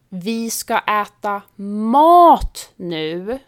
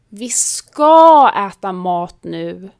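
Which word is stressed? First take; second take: mat; ska. First: The stress is on the word mat. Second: The stress is on the word ska. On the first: We will eat real food, not sweets or snacks. "betyder vi ska inte äta godis eller snacks utan riktig mat" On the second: Yes, we really will eat, so stop nagging. "betyder ja, sluta tjata, vi ska äta"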